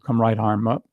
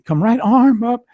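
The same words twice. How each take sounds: First: It is said in a low voice. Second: It is said high, light and airy. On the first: "Instead of into a low" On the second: "he increased it a little high, almost like light and airy"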